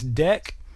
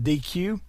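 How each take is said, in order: First: It is said as one syllable, deck. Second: It is said as two letters, dee-cue. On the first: It is the pronunciation programmers use. The speaker calls it right. "the actual nerd correct pronunciation of that is deck" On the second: It is read the way the spelling looks. The speaker calls it wrong. "that looks very much like D Q"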